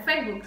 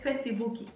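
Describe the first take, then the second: First: The word is said the usual English way. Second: The word is said the Brazilian way. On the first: "aquí no se pronuncia Facebook" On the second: "se dice Facebooki"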